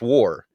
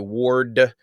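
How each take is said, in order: First: The name ends without a D sound. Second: The name ends with a D sound. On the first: The speaker calls it right. "It's War. It's always been War" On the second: The speaker calls it wrong. "Ward with a D on the end"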